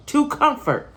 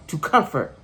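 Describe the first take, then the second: First: "to comfort" jumps much higher, insisting; emphatic higher repeat. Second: Said in the usual way. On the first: Real, not acted. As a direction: say "to comfort" again, up high, pressing the point.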